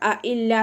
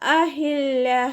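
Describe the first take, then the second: First: The middle consonant is a glottal stop. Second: The middle consonant is a clear breathy h. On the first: The speaker calls it wrong. "ഹംസയുടെ സൗണ്ടായി പോവരുത്" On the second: The speaker calls it right. "അതുപോലെ ഓതുക"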